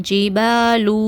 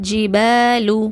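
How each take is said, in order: Both takes have the same delivery.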